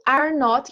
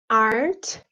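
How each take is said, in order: First: It is said as two separate full words. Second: It is said as one contracted word.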